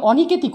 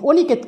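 First: অনিকেতই with open "aw" first vowel; natural vowel. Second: অনিকেত opened with a closed "o"; rejected O form. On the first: Teacher confirming the correct form, অনিকেতই with open aw. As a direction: say অনিকেতই as "aw-niket-i". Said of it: "এখানে উচ্চারণ স্বাভাবিক হবে". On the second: Teacher showing what was not said, অনিকেত with closed o. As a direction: say অনিকেত as "o-niket". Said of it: "অনিকেত করিনি". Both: Shown as a demonstration.

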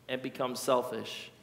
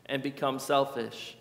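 No difference in how they are said.

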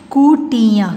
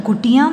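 First: कुटिया in held, separate syllables. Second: Said in the usual way. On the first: Shown as a demonstration. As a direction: sound out कुटिया. (कुटिया को तोड़-तोड़ कर) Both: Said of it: "फिर ये सारे बोलने".

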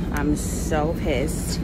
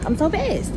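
First: Slow, drawn-out, fed-up; drawn-out annoyance. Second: Much higher, louder outburst; pissed outburst. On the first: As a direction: stretch every word out in irritation. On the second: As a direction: let the frustration jump up. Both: Real, not acted.

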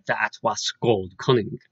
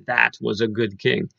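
First: Put-on "That was gold cunning" said slowly in Old English sounds; Old English pronunciation. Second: Said in the usual way. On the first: Shown as a demonstration. Quoting the original's final line to students, "gold cunning" in Old English pronunciation. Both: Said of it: "able to understand of the original".

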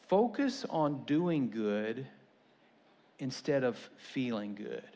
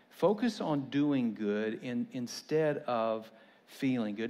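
First: Slow emphatic. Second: Slow repetition. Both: Shown as a demonstration. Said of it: "repeated for emphasis".

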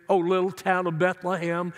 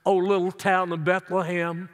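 No difference in how they are said.

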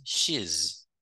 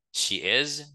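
First: "she's" in one syllable, falling; "she's" ending straight in a z; contracted form. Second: "She is" as two words, raised pitch; uncontracted "She is", is fully voiced; full form. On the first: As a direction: merge she and is into "she's". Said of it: "Ça, c'est forme contractée". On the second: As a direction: sound both syllables of "She is". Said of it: "ça, c'est forme complète". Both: Shown as a demonstration.

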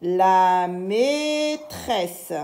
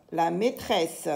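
First: Very slow syllable-by-syllable reading; drawn-out syllables. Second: Said in the usual way. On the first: Shown as a demonstration. Teacher reads aloud for learners, very drawn-out syllables. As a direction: stretch every syllable right out. Teacher models word slowly, then normally.

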